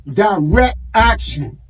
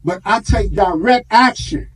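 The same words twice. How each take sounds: First: "Direct action." drawn out slowly, each word weighted; slow emphatic repeat. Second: Said in the usual way. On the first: Real, not acted. Preacher to congregation, hammering home his point, slow and weighty.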